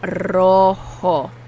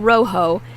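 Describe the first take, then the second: First: The o vowels are pure Spanish o. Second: The o vowels sound like English o. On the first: The speaker calls it right. "It's rojo" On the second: The speaker calls it wrong. "Not rojo"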